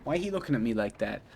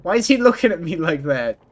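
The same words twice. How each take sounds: First: Low, soft, quick aside; quiet, hurried question under the breath; subdued repeat. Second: Raised, louder outburst of alarm; startled, loud "why is he looking"; startled question. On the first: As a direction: mumble it quickly to yourself. Repeats the same question to themselves. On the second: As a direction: blurt it out, taken aback. Startled reaction to a character's look. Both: Real, not acted.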